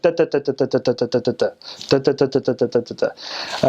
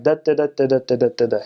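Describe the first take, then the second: First: "da" tapped out evenly, machine-gun style; equal-length syllables. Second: "da" in uneven long-short bounces; bouncy American rhythm. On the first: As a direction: give every da exactly the same length and weight. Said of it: "every syllable is, like, equal, equal length". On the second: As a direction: bounce along on da, stressing every other one. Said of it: "kinda bounce as we're speaking". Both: Shown as a demonstration.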